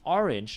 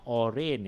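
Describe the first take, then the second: First: The second syllable has a short 'ih' vowel. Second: The second syllable has a different vowel. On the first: The speaker calls it right. "that's actually the the Roman I in the ringe sound there" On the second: The speaker calls it wrong. "not orange"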